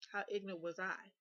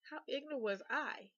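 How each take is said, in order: First: Said in the usual way. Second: Higher, swooping stress on "How ignorant was I"; emphatic repeat. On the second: Real, not acted. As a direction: hit "ignorant" and "I" harder, pitched up. Repeats question for self-mocking emphasis.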